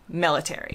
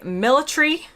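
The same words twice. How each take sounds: First: It is said with an American pronunciation. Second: It is said with a British pronunciation. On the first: "in the U S, we say military" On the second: "U K, they say military"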